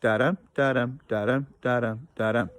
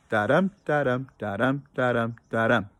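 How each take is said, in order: First: Da-dum again with each dum stressed; iambic beat repeated. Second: Da-dum chanted with the stress on each dum; iambic beat demo. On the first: Teacher repeating the da-dum rhythm for the students. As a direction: chant the iambic beat once more. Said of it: "I'll do it again". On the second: Teacher chanting da-dum to show the class iambic rhythm. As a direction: tap out the iambic rhythm, weak then strong. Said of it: "that rhythm goes like this". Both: Shown as a demonstration.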